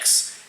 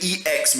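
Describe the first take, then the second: First: The name is said as one letter. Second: The name is spelled out as two letters. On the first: This is how the owner says the name. "but I pronounce it X" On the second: This is how other people say the name. "I know people say E X Media"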